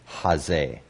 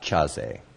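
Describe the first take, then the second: First: It starts with a strong but smooth h sound. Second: It starts with a harsh, scraping ch sound. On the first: The speaker calls it right. "it's just kind of a strong H" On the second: The speaker calls it wrong. "Not chazeh"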